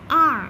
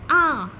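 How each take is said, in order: First: The r sound is pronounced, American style. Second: The r sound is dropped, British style.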